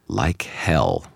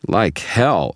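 First: Understated, firm refusal; defiant refusal. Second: Higher, heated contradiction; indignant objection. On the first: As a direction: refuse point-blank without raising your voice. Refusal to a quiet request. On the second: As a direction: object hotly to a lie. Loud objection to a cover-up. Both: A narrator's reading.

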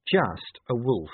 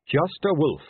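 First: Slow, drawn-out sarcasm; sarcastic. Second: Said in the usual way. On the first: A narrator's reading. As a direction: stretch JUST A WOLF out with irony. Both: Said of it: "said Angua sarcastically".

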